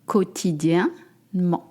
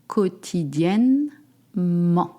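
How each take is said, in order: First: The word is said quickly, at natural speed. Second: The word is said slowly, part by part. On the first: "I say it real speed" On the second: "Let's try it together. Quotidienne and then ment"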